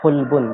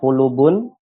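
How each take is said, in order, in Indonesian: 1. Tidak ada vokal yang terdengar setelah l. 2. Vokal u terdengar setelah l. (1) "dengan mensukun lamnya" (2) "dengan lamnya dhammah"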